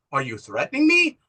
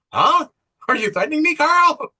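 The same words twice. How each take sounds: First: Controlled, understated challenge at normal pitch; retold steely challenge. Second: High, loud mock confrontation; retold defiant challenge. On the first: Woman facing down Carl's veiled threat, controlled and steely. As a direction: ask it firmly, holding back. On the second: Woman challenging Carl over his threat, loud and defiant. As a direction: escalate sharply, pitched well up. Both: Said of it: "how steely she is".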